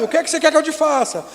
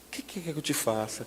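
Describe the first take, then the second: First: The question is shouted loudly. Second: The question is said in a soft, gentle voice. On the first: The asker seems harsh and distant. The speaker calls it wrong. "Jesus gritando" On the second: The asker is close and caring. The speaker calls it right. "com a voz mansa"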